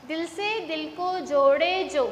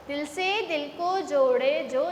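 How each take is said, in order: Both takes have the same delivery.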